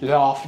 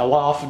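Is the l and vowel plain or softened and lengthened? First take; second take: softened; plain. First: The l is soft and the a lengthened. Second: The l and a sound plain and short. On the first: The speaker calls it right. "laf diyeceksin, o şapka oluyor" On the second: The speaker calls it wrong. "laf değil"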